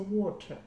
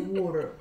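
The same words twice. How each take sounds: First: It is said in a Zimbabwean, British-style accent. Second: It is said in a Canadian accent.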